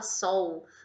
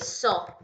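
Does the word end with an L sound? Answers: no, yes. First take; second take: yes; no. First: The word ends with an L sound. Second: The word ends in a plain vowel. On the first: The speaker calls it wrong. "as pessoas falam sol" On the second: The speaker calls it right. "Só que é o que? Só"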